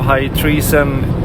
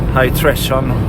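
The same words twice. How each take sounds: First: Treason has the long vowel of 'reason'. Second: Treason has the short vowel of 'treasure'. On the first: The speaker calls it right. "instead of High Treason" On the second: The speaker calls it wrong. "like you would pronounce treasure"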